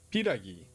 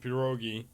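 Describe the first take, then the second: First: The word is pronounced piragi. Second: The word is pronounced pierogi. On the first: This is the form the game uses. The speaker calls it right. "but it's piragi" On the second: This is the form most people around the speaker use. The speaker calls it wrong. "I've been saying pierogi, as everyone else that I know says"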